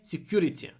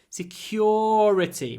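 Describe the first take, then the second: First: The stressed vowel is short. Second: The stressed vowel is a long 'or' sound. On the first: The speaker calls it wrong. "Just don't say security" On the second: The speaker calls it right. "Make the, the stressed or long"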